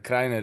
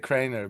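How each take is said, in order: First: The name is given its original pronunciation. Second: The name is given an English-style pronunciation. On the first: This is the name's own pronunciation. The speaker calls it right. "Kreiner is uh, correct" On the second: This is how English speakers say it. The speaker calls it wrong. "the Anglophones say Kreiner"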